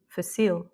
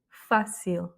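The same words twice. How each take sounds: First: The stress is on the second syllable. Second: The stress is on the first syllable. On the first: The speaker calls it wrong. "et non pas" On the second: The speaker calls it right. "l'accent, il est plutôt en première syllabe"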